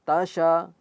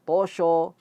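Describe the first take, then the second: First: Neither syllable sounds heavy; both are thin. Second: Both syllables sound heavy and thick. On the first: "Atau to-nya menjadi tipis" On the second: "Jangan ikut menjadi tosho"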